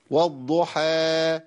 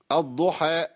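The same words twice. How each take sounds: First: "والضحى" drawn long, final alif fading out freely; مد ينقطع لوحده. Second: "الضحى" with the final alif chopped by a glottal stop; مد مقطوع. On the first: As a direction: let the last vowel of "والضحى" die away by itself. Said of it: "لازم أخلي الصوت ينقطع لوحده". ("والضحى" بمد ينتهي في الهواء دون همزة) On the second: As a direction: cut the last vowel of "الضحى" off on a hamza. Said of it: "ما ينفعش". ("الضحى" بهمزة زائدة تقطع المد) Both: Shown as a demonstration.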